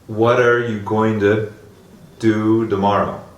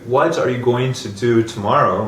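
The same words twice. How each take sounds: First: The T sounds are pronounced like soft Ds. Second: The T sounds are pronounced as clear Ts.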